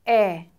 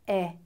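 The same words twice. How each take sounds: First: The vowel is held long. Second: The vowel is held briefly.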